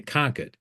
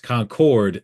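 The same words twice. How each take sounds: First: It is said the Massachusetts way. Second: It is said the North Carolina way.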